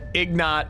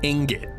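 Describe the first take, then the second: First: The word begins 'ig' with the consonants swapped. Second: The word begins 'ing' with the consonants in order. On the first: The speaker calls it wrong. "Calling Ingot Ignat is just ignorant" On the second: The speaker calls it right. "I didn't know how to say ingot"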